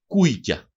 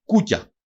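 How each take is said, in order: First: «κούικια» as KUI-kya, with an i glide; dialect variant. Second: «Κούκια» as KU-kya, pure u; standard form. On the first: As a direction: add an i after the u in «κούικια». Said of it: "αναφέρεται και ως". («κούικια» με ι μετά το ου) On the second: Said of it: "αναφέρεται και ως κούικια". («Κούκια» με σκέτο ου πριν το κ) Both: Shown as a demonstration.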